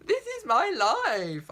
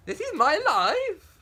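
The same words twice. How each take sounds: First: Higher, louder, slow lament; hammed-up tragic wail; theatrical slow cry of despair; mock despair. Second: High, loud, slow rising wail; hammed-up outraged cry; mock despair. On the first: Repeats tragic protest. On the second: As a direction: melodramatic protest ending on a rise. First tragic protest.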